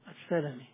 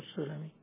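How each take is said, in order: First: The first vowel is 'a', as in Salami. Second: The first vowel is 'u', as in Sulami. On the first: This is the form for the clan among the Ansar. The speaker calls it right. "في الأنصار جابر بن عبد الله السلمي" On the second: This is the form for the tribe of Banu Sulaym. The speaker calls it wrong. "مو السلمي"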